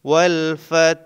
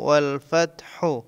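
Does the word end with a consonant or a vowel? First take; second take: consonant; vowel. First: The word ends on a stopped final consonant. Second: The word ends with a final u vowel. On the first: "এখানে অক্ষ হয়েছে বলে হার উপরে জজম দিতে হবে" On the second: "হা পেশ হু"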